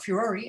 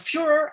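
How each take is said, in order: First: It is said the British way. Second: It is said the American way.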